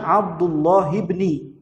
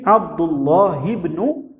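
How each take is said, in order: First: The second word ends with an 'i' vowel. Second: The second word ends with a 'u' vowel. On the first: The speaker calls it wrong. "tidak boleh dibaca Abdullah ibni, tidak boleh" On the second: The speaker calls it right. "wajib Abdullah ibnu"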